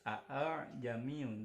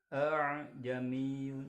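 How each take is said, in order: First: The second hamza is pronounced fully and clearly. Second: The second hamza is softened toward an alif. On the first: "ditulis a'jamiyun" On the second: "dibacanya a'jamiyun"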